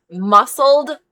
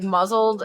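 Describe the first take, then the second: First: "muscled" punched higher, with a clear S sound; stress on MUSCLED. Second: Said in the usual way. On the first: Real, not acted. Correcting muzzled to the word meant, "muscled" stressed. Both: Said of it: "Not muzzled, 'cause we do have to".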